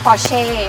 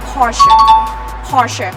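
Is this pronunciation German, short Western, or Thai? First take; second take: Thai; German. First: It is said the Thai way. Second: It is said the original German way. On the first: This is how people in Thailand say it. "บ้านเราเรียก" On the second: This is how it is said in its country of origin. "ประเทศเยอรมนีเขาออกเสียงว่า"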